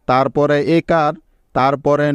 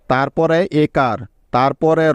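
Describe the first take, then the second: No difference in how they are said.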